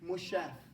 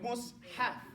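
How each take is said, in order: First: The s and h merge into one sh sound. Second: The s and h are pronounced separately. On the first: The speaker calls it wrong. "you don't say Mushaf" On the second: The speaker calls it right. "put a line between it"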